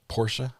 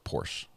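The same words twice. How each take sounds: First: The name ends with an added 'uh' sound. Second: The name ends without an added 'uh' sound.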